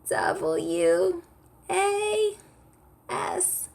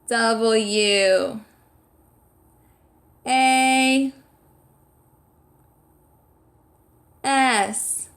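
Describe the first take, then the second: First: The voice is high and squeaky. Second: The voice is loud and projected. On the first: "spell it with me in a squeaky voice" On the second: "we're saying it loudly. We're projecting our voice"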